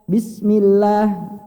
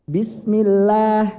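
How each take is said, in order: Both takes have the same delivery.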